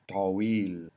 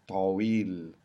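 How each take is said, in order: No difference in how they are said.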